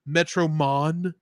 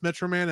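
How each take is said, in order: First: The last syllable is pronounced 'mon'. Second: The last syllable is pronounced 'man'. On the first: The speaker calls it wrong. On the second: The speaker calls it right.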